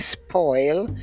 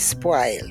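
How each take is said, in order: First: It has a rounded standard English vowel. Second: It has a broad Jamaican vowel.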